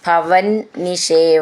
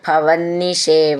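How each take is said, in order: First: The words are said as separate words. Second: The words are run together into one form.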